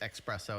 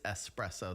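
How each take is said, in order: First: The word begins with an 'ex' sound. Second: The word begins with an 'es' sound. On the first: The speaker calls it wrong. "I thought it was espresso" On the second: The speaker calls it right. "it is espresso. There's two S's"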